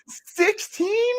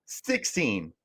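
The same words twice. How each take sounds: First: A high, incredulous cry of the number; can't believe the ranking, voice shooting up; stunned disbelief. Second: Said in the usual way. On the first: Real, not acted. Shocked at ASU's low ranking.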